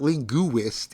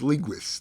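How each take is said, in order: First: It is said with three syllables, stressing the u. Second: It is said with only two syllables. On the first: The speaker calls it wrong. "hitting that U a little hard" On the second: The speaker calls it right. "It's only two syllables"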